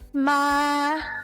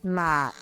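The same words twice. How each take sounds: First: The pitch stays high and level. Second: The pitch dips low, then rises.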